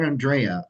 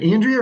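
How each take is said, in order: First: Andrea as an-DRAY-uh; second-syllable stress pronunciation. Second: Andrea as AN-dree-uh; first-syllable stress pronunciation. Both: Shown as a demonstration. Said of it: "how they like to say their name".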